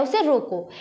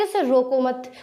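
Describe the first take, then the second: First: "उसे रोको" closed off with falling "रोको"; stop after रोको. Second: "उसे रोको मत" as one phrase, ending on "मत"; मत joined to रोको. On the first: Teacher gives the other meaning, stopping at "रोको". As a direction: end firmly on "रोको", no "मत". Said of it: "और एक में कह रहा है". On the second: Teacher contrasts two meanings, joining "मत" to "रोको". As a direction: run "रोको" straight into "मत". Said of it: "एक में कह रहा है". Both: Shown as a demonstration.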